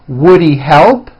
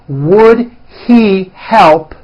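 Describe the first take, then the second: First: The words are reduced and run together. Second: Each word is said fully and separately.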